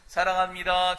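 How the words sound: It is said in a bright, childlike way.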